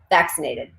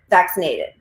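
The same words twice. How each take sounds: First: The stress falls on the usual syllable. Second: The stress falls on an unusual syllable. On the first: The speaker calls it right. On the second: The speaker calls it wrong.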